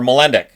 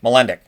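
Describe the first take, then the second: The two takes are said the same way.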